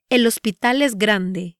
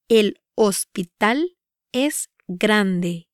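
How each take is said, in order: First: Said in the usual way. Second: "El hospital es grande" with pauses between words; "El hospital es grande" measured, word by word; slow pronunciation demo. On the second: Shown as a demonstration. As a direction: break "El hospital es grande" up for learners. Example repeated broken up for learners.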